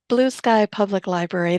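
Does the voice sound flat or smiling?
smiling. The voice sounds warm and smiling. The speaker calls it right. "you can actually hear a smile on the phone"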